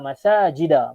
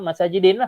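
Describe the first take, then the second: First: The word ends with an 'a' sound. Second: The word ends with an 'in' sound. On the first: The speaker calls it right. "dia ila masajida" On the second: The speaker calls it wrong. "patutnya masajidin lah. Tapi tak"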